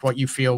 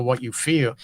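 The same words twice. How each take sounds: First: "what" pushed forward, "you feel" dropped; stress on what. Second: "feel" stressed and falling, softer overall. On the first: Guest asks what you feel, leaning on what. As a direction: lean on "what" and let the rest fall away. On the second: Repeats what you feel, now leaning on feel. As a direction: land on "feel" and let the line fall. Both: Shown as a demonstration.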